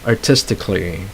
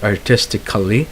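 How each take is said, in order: First: It has no extra syllable before the final -ly. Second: It has an extra syllable before the final -ly. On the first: The speaker calls it right. "so you don't have to pronounce the, le- the letter A there" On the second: The speaker calls it wrong. "not artistically"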